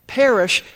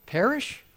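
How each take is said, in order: First: "Perish" stressed, higher and louder, falling; emphatic scripture word. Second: "perish" softer, rising high in disbelief; a doubter scoffing at "perish"; incredulous question. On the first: Shown as a demonstration. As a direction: land hard on "Perish" as the answer. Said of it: "should not" what?". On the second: Retold or imitated. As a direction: ask "perish?" like it makes no sense. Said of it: "they wonder".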